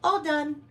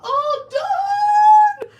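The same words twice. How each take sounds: First: It is said quietly and calmly. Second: It is screamed loudly and in distress.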